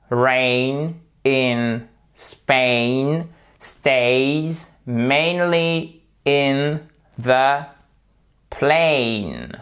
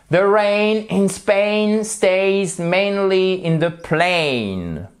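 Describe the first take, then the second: First: "rain in Spain stays mainly in the plain" stretched word by word, every AIN long; drawn out so learners hear each vowel; very slow drill. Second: "The rain in Spain stays mainly in the plain" said slowly and higher; slow drill. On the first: Teacher to students, slow drill. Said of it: "On va s'entraîner sur le A I N". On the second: Teacher models the line again for students, slow. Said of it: "À vous. Allez-y". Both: Shown as a demonstration.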